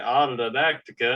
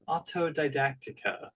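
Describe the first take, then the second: First: It is said in a Southern American accent. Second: It is said in a prim Victorian-style accent. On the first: "I try to say it in my southern slang" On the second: "say it like a Victorian maiden"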